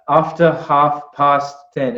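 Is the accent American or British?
British. It is said with a British accent. "he's saying"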